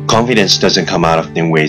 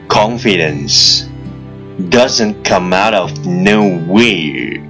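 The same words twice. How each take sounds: First: The sentence is spoken as fast as possible. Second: The sentence is spoken at a moderate pace.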